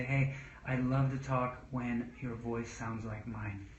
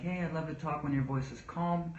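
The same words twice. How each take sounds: First: Slow, even, gently reassuring; calm and slow. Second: Said in the usual way. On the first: Shown as a demonstration. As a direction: model the calm voice you want back. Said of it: "I say". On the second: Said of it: "I don't say all the time".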